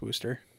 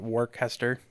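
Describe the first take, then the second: First: The name is said as 'Wooster'. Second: The name is not said as 'Wooster'. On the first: The speaker calls it right. "No, it's Wooster" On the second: The speaker calls it wrong. "I was used to call it Worcester, even though it's not right at all"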